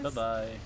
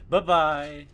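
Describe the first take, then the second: First: It is said flatly, without energy. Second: It is said brightly, with energy.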